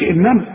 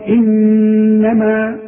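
First: The doubled n is short, without a held nasal sound. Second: The doubled n is held nasally for two counts. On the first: The speaker calls it wrong. "ما تقولش إنما" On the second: The speaker calls it right. "لازم تغنها بمقدارها حركتين"

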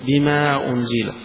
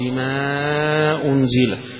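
First: The long vowel is held for two counts. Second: The long vowel is held for four counts. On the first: "يقصر" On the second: "يوسط"

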